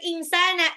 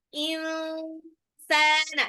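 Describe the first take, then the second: First: The n is said plainly and quickly. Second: The n is held with a nasal hum. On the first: The speaker calls it wrong. "bukan insana" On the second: The speaker calls it right. "insana ditahan nunnya"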